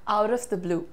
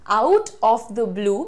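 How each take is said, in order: First: The phrase is said quickly and run together. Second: The phrase is said slowly and carefully. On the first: "जब आप इसे जल्दी से बोलते हैं तो ये कैसा साउंड करता है?" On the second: "आउट ऑफ द blue बिल्कुल सही है"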